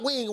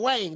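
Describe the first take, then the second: First: The vowel sounds like the standard 'ih' in wing. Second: The vowel sounds like 'ay', giving wang. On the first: The speaker calls it wrong. "Not wing" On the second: The speaker calls it right. "W A N G. Wang. That's how we speak down here"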